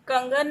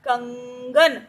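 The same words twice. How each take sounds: First: The nasal first syllable is kept short. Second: The nasal first syllable is drawn out long. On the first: The speaker calls it wrong. "अब इसे हमने कंगन नहीं पढ़ा" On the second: The speaker calls it right. "कंग को हमने लंबा खींचा ना"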